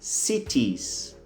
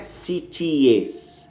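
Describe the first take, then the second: First: It sounds like city with an s added. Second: The ending differs from plain city plus s. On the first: The speaker calls it right. "como se você tivesse acrescentado apenas um S na pronúncia do singular" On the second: The speaker calls it wrong. "A pronúncia não é cities, não"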